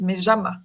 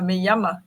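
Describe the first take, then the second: First: The ll is said as a zh sound. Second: The ll is said as a y sound. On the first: "le je partout" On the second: "ils disent pas"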